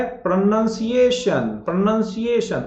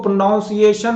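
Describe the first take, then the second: First: "प्रोनंसिएशन" slow, with "nun"; slow model "प्रोनंसिएशन"; corrected pronunciation. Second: "प्रोनाउंसिएशन" with "noun"; the wrong "प्रोनाउंसिएशन"; mispronounced pronunciation. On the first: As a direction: draw out "प्रोनंसिएशन" as pra-nun-si-AY-shun. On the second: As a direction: say "प्रोनाउंसिएशन" with an ow vowel. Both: Shown as a demonstration. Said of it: "इसको प्रोनाउंसिएशन नहीं पढ़ा जाता".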